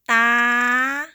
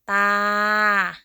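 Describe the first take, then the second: First: The pitch stays high. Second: The pitch stays level in the middle. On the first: "High tone" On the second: "Start with ta as a middle tone"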